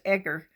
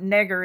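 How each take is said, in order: First: The last part begins with a vowel sound. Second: The last part begins with an n sound. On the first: The speaker calls it right. "it's Egger" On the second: The speaker calls it wrong. "It's not Negger"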